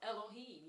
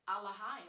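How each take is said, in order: First: The vowels are e and o sounds. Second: The vowels are long ah sounds. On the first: "or Elohim" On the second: "a more ancient pronunciation ... with these long ah sounds"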